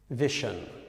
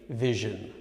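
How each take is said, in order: First: The middle consonant is not a 'zh' sound. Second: The middle consonant is a 'zh' sound. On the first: The speaker calls it wrong. "in that case it's incorrect" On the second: The speaker calls it right. "It should be vision"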